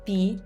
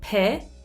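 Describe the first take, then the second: First: The syllable is said with an Italian accent. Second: The syllable is said with an English accent. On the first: The speaker calls it right. "In Italian, we say" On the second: The speaker calls it wrong. "in English, we say"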